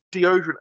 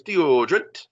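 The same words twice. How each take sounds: First: Said in the usual way. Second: "Deodorant" sung out with a rising end; sing-song mispronunciation. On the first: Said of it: "She can't say deodorant". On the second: Retold or imitated. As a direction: lilt "Deodorant" loudly, lifting the last syllable. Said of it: "She sings it".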